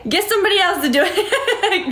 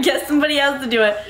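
First: Higher, giggling "Get somebody else to do it"; laughing refusal. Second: Fast, laughing "Get somebody else to do it"; laughing repeat. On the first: Streamer turning down a viewer's dare, laughing and higher. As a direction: laugh off the request. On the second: Streamer repeats her refusal to the viewer, quick and laughing. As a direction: rattle it off through laughter. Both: Real, not acted.

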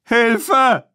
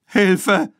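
First: Even higher, louder panicked scream; desperate shriek. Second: High, loud cry for help; screaming for help. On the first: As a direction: shriek it as the bull closes in. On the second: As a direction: shout it in panic at the charging bull. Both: A narrator's reading. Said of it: "schrie Lupin".

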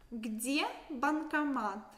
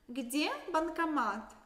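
First: Где банкомат said slowly, stress on где; slow repeat. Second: Said in the usual way. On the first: Shown as a demonstration. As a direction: spell Где банкомат out for learners. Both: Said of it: "Where's the A T M machine?".

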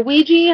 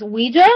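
First: Ouija said as WEE-jee; alternative Ouija pronunciation. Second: Ouija said as WEE-juh; Ouija ending in "-juh". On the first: Offering viewers the other pronunciation, Ouija as WEE-jee. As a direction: say Ouija with a final "ee" sound. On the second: Naming the next movie, Ouija pronounced WEE-juh. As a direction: say Ouija with a final "uh" sound. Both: Shown as a demonstration. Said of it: "however you wanna say it".

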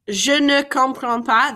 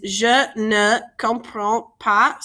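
First: Said in the usual way. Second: "Je ne comprends pas" slowly, word by word; "Je ne comprends pas" drawn out, rising at the end; slow breakdown. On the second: Shown as a demonstration. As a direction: separate each word of "Je ne comprends pas" for learners. Teacher breaks the phrase down slowly.

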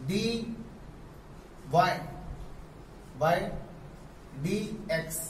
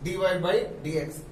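First: Teacher spelling out d y by d x; slow spelled-out reading. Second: Said in the usual way. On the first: Shown as a demonstration. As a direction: read it out piece by piece, pausing. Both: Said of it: "ऐसे पढ़ते हैं".

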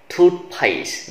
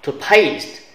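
First: TOOTH stressed in Toothpaste, paste falling away; stress on the first word. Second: Toothpaste with PASTE stressed, drawn out slowly; wrong stress on second word. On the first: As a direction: hit Tooth in Toothpaste, let paste drop. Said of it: "is on the first word". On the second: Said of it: "not toothpaste". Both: Shown as a demonstration.

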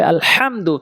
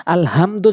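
First: "আলহামদু" with a strong mid-throat ha; correct pressed HA. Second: "আলহামদু" with a light, ordinary h; mistaken soft HA. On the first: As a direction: squeeze breath through the H of "আলহামদু". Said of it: "বলতে হবে". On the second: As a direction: let the H of "আলহামদু" go weak. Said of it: "যেন না হয়". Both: Shown as a demonstration.

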